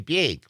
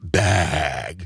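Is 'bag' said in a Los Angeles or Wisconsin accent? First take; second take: Wisconsin; Los Angeles. First: Bag is said in the speaker's Wisconsin accent. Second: Bag is said the Los Angeles way.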